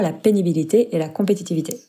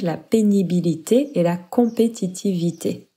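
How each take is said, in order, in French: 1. La phrase est dite à un rythme plus rapide. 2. La phrase est dite à un rythme plus lent.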